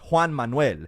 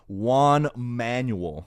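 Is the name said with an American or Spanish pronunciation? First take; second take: Spanish; American. First: The name is said with a Spanish pronunciation. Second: The name is said with an American English pronunciation. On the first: The speaker calls it right. "In Spanish, it's" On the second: The speaker calls it wrong. "it sounded atrocious"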